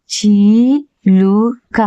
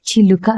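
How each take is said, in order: First: చీలుక with a long, stretched చీ; wrong long vowel. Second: చిలుక with a short, crisp చి; short vowel. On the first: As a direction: drag out the చీ in చీలుక slowly. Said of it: "చీలుక అంటామా". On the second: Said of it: "చిలుక అంటామా". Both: Shown as a demonstration.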